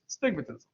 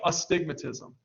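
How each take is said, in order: First: The word begins directly with the s sound. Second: The word begins with an extra vowel sound. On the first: The speaker calls it right. "It's just stigmatism" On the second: The speaker calls it wrong. "I kept saying astigmatism, but that's not how you pronounce it"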